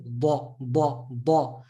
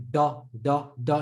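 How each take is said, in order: First: "ba" as a heavy D, tongue curved like a spoon; heavy Dad. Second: "da" with a flat tongue; plain, untrapped "da"; light Dal-like D. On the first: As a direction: trap and release each "ba". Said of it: "is the tongue". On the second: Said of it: "your dad is sounding like". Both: Shown as a demonstration.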